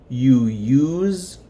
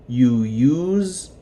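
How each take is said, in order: The two takes are said the same way.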